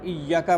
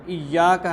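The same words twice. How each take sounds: First: The y sound is short and single. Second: The y sound is held and doubled. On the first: The speaker calls it wrong. "किसी हरूफ को कम कर देना" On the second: The speaker calls it right. "इय्याका है"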